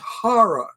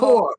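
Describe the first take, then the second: First: Said in a standard accent, with two clear syllables. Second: Said in a Florida accent, sounding like 'whore'. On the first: The speaker calls it right. "It's horror" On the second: The speaker calls it wrong.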